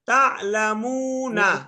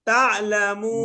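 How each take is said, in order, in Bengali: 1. শব্দটি পূর্ণ 'na' দিয়ে শেষ হয়। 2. শব্দটি স্বরধ্বনি ছাড়া 'n' দিয়ে শেষ হয়। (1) "ওয়াকফ না করলে" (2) "ওয়াকফ করলে"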